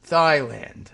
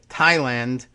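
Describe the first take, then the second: First: The word begins with a th sound. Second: The word begins with a plain t sound. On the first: "he saw T H and said, "I know how you say that" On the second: "the way you know most people have said it since forever"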